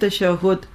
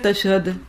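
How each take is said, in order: First: The word is pronounced carefully, with every sound clear. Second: The word is pronounced loosely, with sounds changed. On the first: The speaker calls it right. "پہلے تو لفظ غور سے سنیے" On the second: The speaker calls it wrong. "بعض لوگ کیا کہتے ہیں؟"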